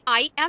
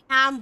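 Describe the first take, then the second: First: It is said as two full separate words. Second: It is said as one short contracted syllable. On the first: The speaker calls it wrong. "हमें आई एम नहीं बोलना है" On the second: The speaker calls it right. "हमें एम बोलना है"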